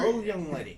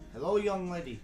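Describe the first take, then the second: First: It is said without an Australian accent. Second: It is said in an Australian accent. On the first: The speaker calls it wrong. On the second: The speaker calls it right.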